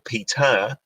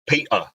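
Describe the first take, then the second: First: The T is a clear, fully released t. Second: The T is swallowed as a glottal stop. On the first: "in British English just the T" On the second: "the glottal stop sound, which is British Peter, where you kind of swallow the T"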